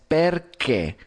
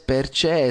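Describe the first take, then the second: First: The 'ch' is a hard k sound. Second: The 'ch' is not a hard k sound. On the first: The speaker calls it right. "el sonido de che es igual a lo que tendrías con el che de la Q en español" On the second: The speaker calls it wrong. "no es perché"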